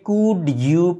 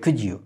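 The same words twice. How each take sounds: First: The two words are said separately. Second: The two words are linked together. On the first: The speaker calls it wrong. "নেটিভরা কিন্তু কখনোই কুড ইউ প্লিজ এভাবে করে বলে না" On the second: The speaker calls it right. "ওরা যখন একসাথে করে তখন জিনিসটা হয়ে যায় কুড ইউ"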